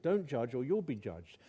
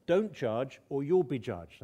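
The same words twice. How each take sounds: First: Said in the usual way. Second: Slow, weighty reading of "Don't judge or you'll be judged."; emphatic slow quote. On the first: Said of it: "I think it's five words in Greek". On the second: Shown as a demonstration. Preacher to congregation, reading the verse slowly and emphatically. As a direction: lean on each word, slowly. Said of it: "it simply uses the same word".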